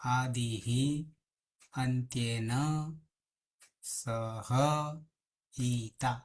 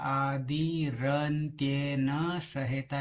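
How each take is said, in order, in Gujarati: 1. શબ્દો અલગ અલગ રૂપમાં છૂટા પડે છે. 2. શબ્દો એકસાથે જોડાઈને એક રૂપ બની જાય છે. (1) "સમજવા માટે ... આવું છે" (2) "જ્યારે બોલીશું ત્યારે ... એવી રીતે જ બોલીશું"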